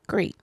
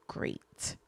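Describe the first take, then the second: First: Said in the usual way. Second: Whispered. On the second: Real, not acted. Whispered aside in airport story.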